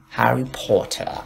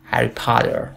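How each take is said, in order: First: "هری پاتر" as "po-tah" without r; slow, crisp t and rounded o in "پاتر"; British "Harry Potter". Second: "هری پاتر" as "pah-der" with final r; American "Harry Potter". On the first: Teacher recapping British, r-less "پاتر". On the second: Teacher recapping American, flapped "پاتر". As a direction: soften the t of "پاتر" to d, sound the r. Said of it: "امریکن". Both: Shown as a demonstration.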